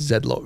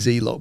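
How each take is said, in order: First: The name is said the British way. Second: The name is said the American way. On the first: It is the proper English name. "obviously we're English, right? It's it's Z-Lock really" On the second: It is the name used in house. "probably because of my time in the States, we want it. We we call it Z-Lock"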